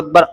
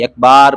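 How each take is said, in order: First: The vowel after the b is kept short. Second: The vowel after the b is drawn out long. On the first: The speaker calls it right. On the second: The speaker calls it wrong.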